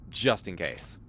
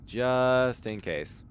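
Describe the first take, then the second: First: Said in the usual way. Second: Very slow, higher repeat; JUST held long, the rest slow; drawn out. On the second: Real, not acted. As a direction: stretch out JUST long and raised.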